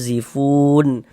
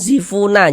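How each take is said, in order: First: The word ends cleanly on the n sound. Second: The word ends with an added vowel after n. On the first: The speaker calls it right. "tapi zifun" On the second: The speaker calls it wrong. "Jangan zifuna, jangan"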